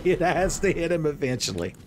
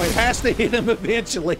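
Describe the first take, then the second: First: Said in the usual way. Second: Much higher and louder, pleading; desperate shout. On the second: Real, not acted. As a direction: yell it like your hope depends on it. Repeats line, loud then calm.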